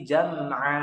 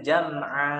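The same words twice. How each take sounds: First: The final vowel is released smoothly and fully. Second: The final vowel is cut off abruptly and pressed. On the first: The speaker calls it right. "tapi jam'a. Jam'a. Seperti itu" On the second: The speaker calls it wrong. "Jangan lalu kita baca jam'a. A. Jangan gitu"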